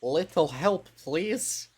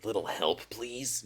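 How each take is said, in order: First: A lightly voiced huntress, higher, pleading; first try at a sultry huntress asking for help; Huntress voice attempt. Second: Lower huntress try. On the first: Streamer tries a Huntress voice for the game, lightly voiced and higher. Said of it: "Huntress voice". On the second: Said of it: "No, that's not it either". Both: Shown as a demonstration.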